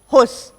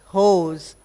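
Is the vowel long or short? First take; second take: short; long. First: The vowel is short. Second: The vowel is long. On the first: The speaker calls it wrong. "it's not uh" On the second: The speaker calls it right. "O is pronounced a little longer"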